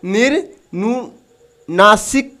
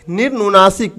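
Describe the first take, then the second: First: निर्नुनासिक drawn out very slowly, syllable by syllable; teacher stretching निर्नुनासिक into separate syllables; slow sounding out. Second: Said in the usual way. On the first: Shown as a demonstration. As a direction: spell out निर्नुनासिक slowly for the class. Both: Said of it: "पहला क्या है?".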